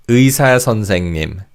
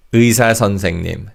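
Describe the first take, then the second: No difference in how they are said.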